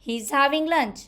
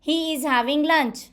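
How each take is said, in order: First: He and is are joined into one syllable. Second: He and is are said as two full words.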